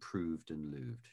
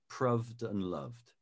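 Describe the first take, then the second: First: The vowels in both words are longer. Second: The vowels in both words are shorter. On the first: This is how it is said today. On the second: This is how most people said it in the past.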